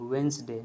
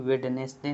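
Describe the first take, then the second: First: The d is silent, said as two syllables. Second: The d is pronounced, said as three syllables. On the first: The speaker calls it right. "वेंसडे बोलेंगे इसको" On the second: The speaker calls it wrong. "ना कि वेडनेसडे"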